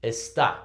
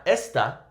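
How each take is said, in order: First: "está" said es-TÁ, beat on the last syllable; stress on final syllable. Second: "esta" said ES-ta, beat on the first syllable; stress on first syllable. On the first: Teacher shows the right way for learners, "está" stressed es-TÁ. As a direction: put the weight on á in "está". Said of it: "Because of the accent, we're gonna pronounce it". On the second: Teacher shows the wrong way for learners, "esta" stressed ES-ta. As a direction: put the weight on es in "esta". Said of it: "Not esta". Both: Shown as a demonstration.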